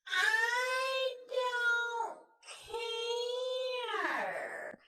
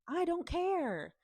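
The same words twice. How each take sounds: First: It is said in a mocking, taunting tone. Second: It is said in a plain, sincere tone.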